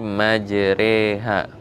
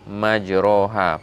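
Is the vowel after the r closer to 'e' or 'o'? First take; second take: e; o. First: The vowel after r leans toward e. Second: The vowel after r is a full open vowel. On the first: The speaker calls it right. "Jadi majreha" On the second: The speaker calls it wrong. "bukan majroha"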